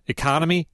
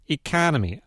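First: Said in the usual way. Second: "economy" with a fronted A in the stressed syllable; exaggerated Wisconsin accent. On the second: Shown as a demonstration. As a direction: overdo the local vowel in "economy": ee-CAN-uh-mee. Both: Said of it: "I'm exaggerating a little".

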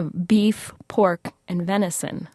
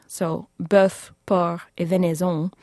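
First: Said in the usual way. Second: Bœuf, porc, et venaison in French sounds; bœuf, porc, et venaison with French vowels and no English r; French pronunciation. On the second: Shown as a demonstration. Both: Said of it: "then the lords used the French words".

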